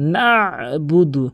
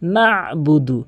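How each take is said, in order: Both takes have the same delivery.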